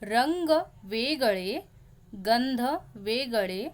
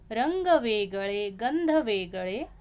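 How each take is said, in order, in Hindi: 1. यह धीरे से बोली जाती है, वाक्यांशों के बीच विराम के साथ। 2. यह प्रवाहमय, लयबद्ध ताल में बोली जाती है। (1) "धीरे धीरे मैं आपको बोल के दिखाती हूँ" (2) "थोड़ा सा रिदम के साथ बोलते हैं"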